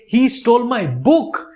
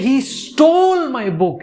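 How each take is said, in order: First: The stress is on "book". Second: The stress is on "stole".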